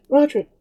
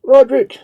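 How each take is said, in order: First: High, ringing cry of a name; excited cry. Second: Much louder and higher, a full shout; crowd shout. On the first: Townswoman answering Pauline, cries the hero's name excitedly. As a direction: call the hero's name in joy. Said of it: "cried the woman in belief". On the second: Pious Spaniards cheering their hero, a loud shout. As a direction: roar the hero's name like a crowd. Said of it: "shouted the pious Spaniards". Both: Acted.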